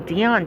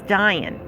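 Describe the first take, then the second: First: The name does not rhyme with lion. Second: The name rhymes with lion, starting with D. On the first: The speaker calls it wrong. "a lot of people think Dion" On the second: The speaker calls it right. "kind of like lion with a D"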